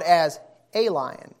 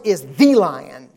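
First: "a" said "ay", set apart and stressed. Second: "the" said "thee", drawn out and stressed. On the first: Preacher calling Satan just one lion, stress on A. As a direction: lean on A as the lesser article. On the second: Preacher setting Christ apart as the one true lion, stress on THE. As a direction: lean slowly on THE. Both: Real, not acted.

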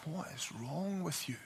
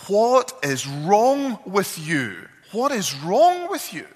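First: Much softer, hushed concern; very different tone. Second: Slow, high, loud exasperated cry; angry yelling. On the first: Wife softly asks weeping husband, quiet concern. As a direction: drop right down, gentle and worried. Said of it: "in a very different tone". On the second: Wife yells in despair at husband, angry shout. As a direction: shout it at him, higher and louder each time. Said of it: "she's yelling at him at this point". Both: Retold or imitated.

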